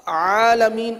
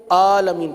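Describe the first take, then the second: First: "عالمین" opened with a full ain from mid-throat; correct ain. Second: "عالمین" starting on a plain open aa; ain read as hamza. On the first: Teacher showing the proper word, "عالمین" with a true throat ain. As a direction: start "عالمین" on a squeezed throat consonant, not a glottal catch. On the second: Teacher showing the common mistake, "عالمین" with hamza for ain. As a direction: say "عالمین" with no throat constriction on the first sound. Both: Shown as a demonstration. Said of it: "عین کو حمزہ پڑھ دیتے ہیں".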